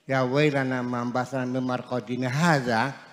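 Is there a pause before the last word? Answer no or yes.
no. There is no pause before the last word. The last word describes the sleeping place. The speaker calls it wrong. "Kalau dibacanya langsung"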